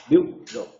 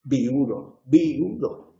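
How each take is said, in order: First: VIUDO squeezed into VIU-do; two-syllable diphthong. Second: VIUDO said as vi-U-do, stress on u; three-syllable hiatus. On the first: Teacher shows the alternative to the class, diphthong VIU-do. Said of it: "dos sílabas". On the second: Teacher shows how many Castilians say it, hiatus vi-U-do. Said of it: "tres sílabas". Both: Shown as a demonstration.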